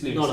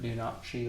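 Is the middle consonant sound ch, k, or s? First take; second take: s; ch. First: The middle consonant is an s sound. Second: The middle consonant is a ch sound. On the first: The speaker calls it right. "but it's Lunacy" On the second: The speaker calls it wrong. "some people pronounce it"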